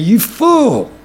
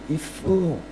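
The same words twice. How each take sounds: First: It is said angrily. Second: It is said sadly and with pity.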